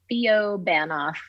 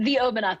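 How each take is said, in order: First: The name is split as Theo plus Banoff. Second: The name is split as the plus Obanoff. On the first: The speaker calls it wrong. "is how most people seem to pronounce it" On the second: The speaker calls it right. "is correct"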